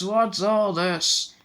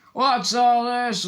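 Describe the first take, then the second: First: Grand showman repeat. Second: High, loud, drawn-out showman call; booming. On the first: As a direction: savour the question, still grand. Repeated, a notch softer. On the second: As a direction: sweep in grandly to take the stage. Lockhart booming arrival. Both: A narrator's reading.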